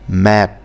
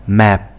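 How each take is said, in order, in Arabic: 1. تنتهي بصوت p مهموس. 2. تنتهي بصوت p مهموس.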